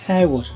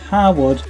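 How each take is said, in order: First: The first syllable sounds like 'hair'. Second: The first syllable sounds like 'har'. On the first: It names the place. "the place is Harewood" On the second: It names the lord who holds the title. "he is Harwood"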